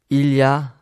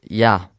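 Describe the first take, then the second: First: Every syllable is pronounced in full. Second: Sounds are dropped and run together.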